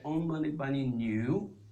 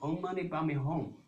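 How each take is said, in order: First: The last syllable is said as nu. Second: The last syllable is said as hong. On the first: The last character is read as the word for cow. The speaker calls it wrong. "Instead of Hong, he said Om Mani Padme Nu" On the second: The last character is read with its proper sound. The speaker calls it right. "You should chant Om Mani Padme Hong"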